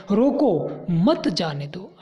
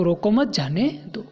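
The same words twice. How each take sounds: First: Slow, "रोको" drawn out, then a break before "मत"; pause after रोको. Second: "रोको मत" run together, then "जाने दो"; group "रोको मत" as one unit, break before "जाने"; pause after मत. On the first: Teacher showing a comma changes the meaning, pause after "रोको". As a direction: set "रोको" apart, then join "मत जाने दो". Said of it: "उसी वाक्य को नीचे विराम चिन्हों का". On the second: Teacher explaining punctuation to pupils, pause after "मत". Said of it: "उसका मतलब था उसको रोको मत". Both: Shown as a demonstration.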